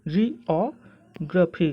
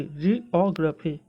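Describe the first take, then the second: First: जियोग्राफी very slow, broken into jee, aw, gruh-fee; careful correct pronunciation. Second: जियोग्राफी measured but more connected, jee-aw-gruh-fee; slow, smooth model of जियोग्राफी; correct pronunciation, joined. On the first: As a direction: stretch जियोग्राफी out piece by piece. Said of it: "अगर आपको सही तरीके से बोलना है". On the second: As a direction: say जियोग्राफी slowly as one joined word. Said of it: "तो आप इसको बोल सकते हैं". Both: Shown as a demonstration.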